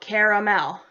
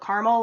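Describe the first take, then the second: First: The word is said with three syllables. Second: The word is said with two syllables. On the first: "spelled C A R A M E L. So caramel" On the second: "like C A R M E L"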